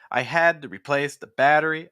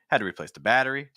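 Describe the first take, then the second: First: Many words are stressed, so it sounds choppy. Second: Only battery is stressed, so it flows smoothly. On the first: The speaker calls it wrong. "you are restarting your pitch, and that results in a choppier sentence" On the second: The speaker calls it right. "if I just stress the battery"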